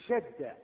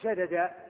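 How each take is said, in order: First: The two d sounds merge into one doubled d. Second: The two d sounds are pronounced separately. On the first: The speaker calls it right. "تقول شد" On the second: The speaker calls it wrong. "ما تقول شدد"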